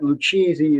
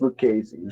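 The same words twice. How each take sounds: First: The middle consonant sounds like ch. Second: The middle consonant sounds like k. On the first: The speaker calls it wrong. "it's not Lucchese" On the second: The speaker calls it right. "when you have the C H, C H letters together, it's always pronounced like a K"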